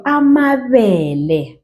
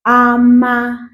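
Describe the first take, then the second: First: Said in the usual way. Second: Slower. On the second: Shown as a demonstration.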